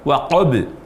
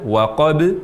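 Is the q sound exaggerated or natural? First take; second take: exaggerated; natural. First: The q sound is overdone and pushed too far. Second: The q sound is produced cleanly without overdoing. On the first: The speaker calls it wrong. "misalnya terucap waqab" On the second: The speaker calls it right. "saat mengucapkan huruf qaf di kata waqab"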